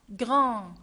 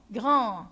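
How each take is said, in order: Both takes have the same delivery.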